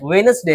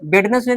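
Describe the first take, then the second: First: The middle d sound is left out. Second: The middle d sound is pronounced. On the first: The speaker calls it right. "वेनसडे होता है" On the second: The speaker calls it wrong. "वेडनेसडे नहीं होता है"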